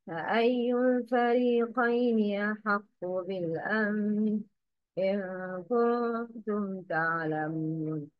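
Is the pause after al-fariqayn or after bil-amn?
bil-amn. The pause comes after bil-amn. The speaker calls it right. "the correct is"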